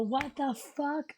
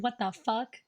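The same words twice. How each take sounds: First: Slow, drawn-out shocked croak; stunned, dragging each word. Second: Said in the usual way. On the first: Retold or imitated. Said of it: "and then I go". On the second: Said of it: "I verbally out loud said".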